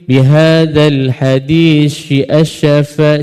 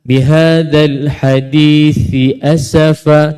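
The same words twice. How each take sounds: First: The th and s sounds blur together. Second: The th and s sounds stay clearly separate. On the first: The speaker calls it wrong. "Tapi ada yang bunyi" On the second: The speaker calls it right. "Kat sini dua kali kan? Ti dengan sa"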